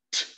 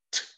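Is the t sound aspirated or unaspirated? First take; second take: aspirated; aspirated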